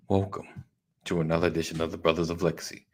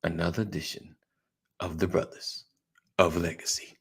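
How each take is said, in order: First: Said in the usual way. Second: Fighting game announcer. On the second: Acted. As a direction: stretch it out like a fight intro. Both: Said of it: "Working on, working on my announcer voice".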